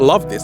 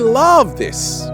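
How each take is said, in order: First: It is said flatly, without feeling. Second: It is said warmly, with real feeling. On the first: The words are said without real care. The speaker calls it wrong. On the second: The speaker truly cares about the work. The speaker calls it right.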